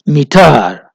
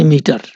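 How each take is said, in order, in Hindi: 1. Stress दूसरे अक्षर पर पड़ता है। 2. स्ट्रेस पहले अक्षर पर पड़ता है। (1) "अगर हम टर पे स्ट्रेस ज्यादा डालेंगे" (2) "इसमें मी पे स्ट्रेस ज्यादा है, टर पे स्ट्रेस कम है।"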